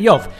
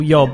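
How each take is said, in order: First: The name ends with a v sound. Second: The name ends with a b sound. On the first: The speaker calls it right. "tylko zawsze Jow" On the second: The speaker calls it wrong. "żaden Żyd nie mówi po hebrajsku Job"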